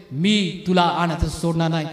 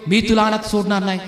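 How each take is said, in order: First: Lower, slow solemn promise; God's voice. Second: Said in the usual way. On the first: Retold or imitated. God promising the faithful not to leave them, low and slow. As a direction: speak it as God, slowly and deep.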